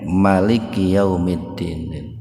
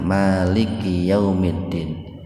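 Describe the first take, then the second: First: The vowel after the first m is short. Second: The vowel after the first m is long. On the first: "Kalau mimnya dibaca pendek" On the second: "Kalau dibacanya itu panjang mimnya"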